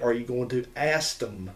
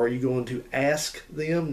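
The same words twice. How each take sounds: First: The word ask is said as ast. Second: The word ask is said in the standard way. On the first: The speaker calls it right. "You say, This word is ast" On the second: The speaker calls it wrong. "You don't say"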